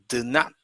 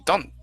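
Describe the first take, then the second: First: Two full separate words are said. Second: The words are joined into one contracted word.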